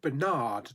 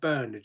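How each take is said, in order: First: The name is said in an American accent. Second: The name is said in a British accent.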